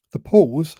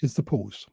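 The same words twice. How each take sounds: First: "The pause" repeated louder, with a firm falling "pause"; stressed word pause. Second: Long pause before "is the pause", then "pause" said low and soft with a falling close; dramatic pause first. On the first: Speaker stresses the key word for the audience, loud and firm. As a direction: punch "pause" to drill the point home. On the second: Speaker shows the audience a dramatic pause, softly. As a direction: hold a dramatic silence, then drop quietly onto "pause". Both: Shown as a demonstration. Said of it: "I'm gonna emphasize the word pause".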